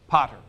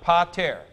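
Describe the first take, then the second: First: The stress is on the first syllable. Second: The stress is on the last syllable. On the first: The father is being addressed directly. "This is the vocative, ... the accent is recessive" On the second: The father is named as the subject. "That's the nominative singular of Father"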